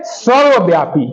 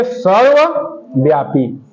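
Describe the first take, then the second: First: Said in the usual way. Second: सर्वव्यापी split into सर्व, pause, व्यापी; low, slow सर्व ... व्यापी for note-takers; slow dictation in parts. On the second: Shown as a demonstration. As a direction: say सर्वव्यापी slowly in two separate halves. Repeats answer in parts for class.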